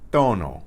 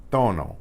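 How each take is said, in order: No difference in how they are said.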